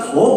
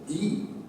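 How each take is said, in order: First: The vowel is short and neutral, like 'thuh'. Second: The vowel is long and high, like 'thee'. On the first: It is just an ordinary article. "더보다 더 강력한 거는" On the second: It is the one and only, with no other. "더 유일한 거는 D라고 발음을 합니다"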